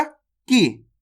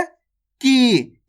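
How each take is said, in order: First: "की" with a short, quick vowel. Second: "की" stretched long on the vowel; long stressed vowel. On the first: Teacher recalling small ई matra, short simple "की". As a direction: say "की" without stretching the vowel. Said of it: "छोटी ई की मात्रा को अपन ने कैसे पढ़ा". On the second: Teacher contrasting big ई matra, drawn-out "की". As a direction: press into a long, held "की". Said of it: "इसके उच्चारण में जोर लगा देंगे". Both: Shown as a demonstration.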